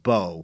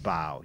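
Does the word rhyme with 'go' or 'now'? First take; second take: go; now. First: The vowel rhymes with 'go'. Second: The vowel rhymes with 'now'. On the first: The weapon that shoots arrows. The speaker calls it right. "it meant bow" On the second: Bending forward at the waist. The speaker calls it wrong. "not bow"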